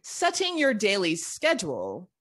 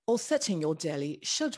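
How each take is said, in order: First: "schedule" said the American way, SKED-jool. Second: "schedule" said the British way, SHED-yool, in a bad accent. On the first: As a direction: start "schedule" with a hard sk sound. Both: Shown as a demonstration. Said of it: "My bad accent ru-, uh, ruined it".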